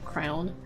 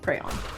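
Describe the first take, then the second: First: The word sounds like 'crown'. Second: The word sounds like 'cray-on'. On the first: The speaker calls it wrong. "says it more like crown" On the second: The speaker calls it right. "I definitely say crayon"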